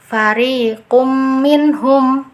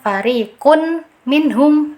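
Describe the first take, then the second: First: The m merges but without a held nasal. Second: A clear separate n is pronounced before minhum. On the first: "tidak ada dengungnya di situ" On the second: "itu izhar, itu keliru ya"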